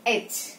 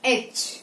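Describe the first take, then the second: The two takes are said the same way.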